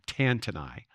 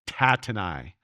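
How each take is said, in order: First: An extra n sound comes before the second t. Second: No n sound comes before the second t. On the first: The speaker calls it wrong. "putting an extra N in it" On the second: The speaker calls it right.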